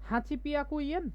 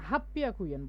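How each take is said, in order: First: Eight hundred is said as 'hachi hyaku'. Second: Eight hundred is contracted to 'happyaku'. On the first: The speaker calls it wrong. "আটশো কি ব্যতিক্রম ছিল না?" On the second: The speaker calls it right. "এবং আটশোকে কি বলি বলেন তো আমরা? হাফ পিয়াকু।"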